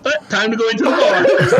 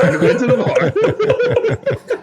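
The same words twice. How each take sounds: First: Mock-casual quip with a laugh in it; lightly voiced buddy shrugging it off; laughing, half-hearted imitation; casual brush-off. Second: Much higher, slow, sing-song take with a laugh; hammed-up teasing repeat of the line. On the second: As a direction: sing it out high and slowly, teasing. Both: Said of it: "hot chocolate's like".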